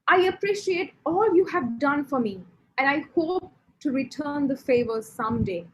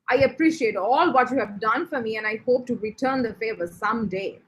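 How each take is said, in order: First: The tone sounds sincere and genuine. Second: The tone sounds sarcastic and mocking. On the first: The gratitude is truly meant. "This is your very sincere, you're very genuine" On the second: The gratitude is not truly meant. "So that is me being sarcastic"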